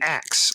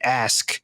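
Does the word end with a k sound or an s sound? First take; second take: s sound; k sound. First: The word ends with an s sound. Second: The word ends with a k sound. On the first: The speaker calls it wrong. "I grew up with my parents saying axe" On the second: The speaker calls it right. "It's supposed to be ask"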